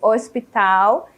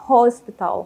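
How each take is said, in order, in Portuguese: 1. A palavra é pronunciada do jeito português. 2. A palavra é pronunciada do jeito inglês. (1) "Em português" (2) "e em inglês"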